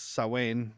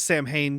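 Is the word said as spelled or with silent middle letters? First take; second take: silent letters; as spelled. First: The middle letters are silent, not sounded out. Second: Every letter is sounded out as it is spelled. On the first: The speaker calls it right. "but it's Gaelic, so it's Samhain. You don't say any of the letters you see" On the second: The speaker calls it wrong. "everybody always says Samhain because that's how it's spelled"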